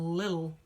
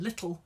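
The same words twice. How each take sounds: First: The middle t is a soft flap. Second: The middle t is a clear t.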